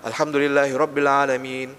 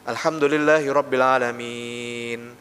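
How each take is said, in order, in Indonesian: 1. Huruf mad panjang terakhir dibaca dua ketukan. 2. Huruf mad panjang terakhir dibaca empat ketukan. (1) "Itu dua"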